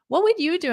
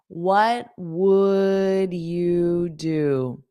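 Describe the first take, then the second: First: The phrase is said quickly. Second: The phrase is said slowly. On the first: "I'll say it fast" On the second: "Now I'll say it slowly"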